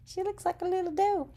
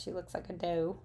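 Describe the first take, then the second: First: Put-on much higher, quick cooing baby talk; cutesy voice. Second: Said in the usual way. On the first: Crafter coos over her stamped deer in a high cutesy voice. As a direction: coo it like it's adorable. Repeats remark in cute voice.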